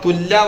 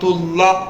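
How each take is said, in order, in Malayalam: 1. അവസാനം നേർത്ത 'la' ശബ്ദമാണ്. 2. അവസാനം പൂർണ്ണ 'Allah' ശബ്ദമാണ്. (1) "തുല്ലാ പറയാൻ പാടില്ല" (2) "ലമ്മ വന്നാല് ഖുദ്റത്തുല്ലാഹ്"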